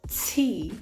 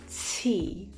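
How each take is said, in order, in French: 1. Lent, avec un fort sifflement semblable à un s après le t. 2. Lent, avec un fort sifflement semblable à un s après le t.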